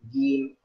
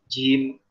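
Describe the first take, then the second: First: The j sound is clear, without ch. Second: The j sound blends toward a ch sound. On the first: The speaker calls it right. "Jadi jelaskan ar-rajim" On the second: The speaker calls it wrong. "nah itu jim yang tidak tepat"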